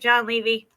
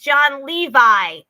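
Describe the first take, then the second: First: The surname ends with an 'ee' sound. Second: The surname ends with an 'eye' sound. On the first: The speaker calls it wrong. "I always call him Levy" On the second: The speaker calls it right. "It's John Levi is the correct pronunciation"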